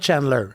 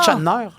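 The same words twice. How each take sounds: First: The name is said in a neutral, standard accent. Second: The name is said in a strong Québécois accent. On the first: It is said in a formal interview so people understand. "Si je suis en entrevue, je vais dire Chandler" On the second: It is said casually at home among locals. "il y a vraiment un accent"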